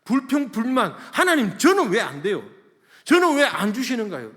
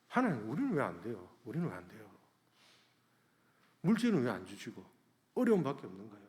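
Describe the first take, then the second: First: High, loud protest to God; loud complaining. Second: Understated, quick plea to God; tearful complaint. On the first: Pastor acting out his old prayers to God, loud complaining. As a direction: cry out a grievance at full voice. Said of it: "주님 앞에 불평불만밖에 안 했어요". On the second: Pastor recalling his prayer near tears, understated tearful complaint. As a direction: lament in a subdued everyday voice. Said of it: "눈물이 날라더라고요". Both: Retold or imitated.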